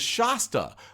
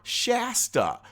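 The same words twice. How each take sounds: First: The first vowel rhymes with pasta. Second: The first vowel does not rhyme with pasta. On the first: "like pasta" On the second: "like the Shasta Daisy"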